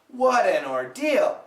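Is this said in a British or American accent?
American. An American accent with a flapped, linked T. "those damn Americans like to say"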